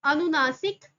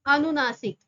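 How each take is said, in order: Both takes have the same delivery.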